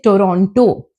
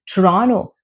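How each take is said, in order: First: The T sound after N is pronounced. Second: The T sound after N is dropped. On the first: The speaker calls it wrong. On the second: The speaker calls it right.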